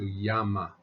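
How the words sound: The double L is said as an open Y. It is the pronunciation used in class. "an open Y"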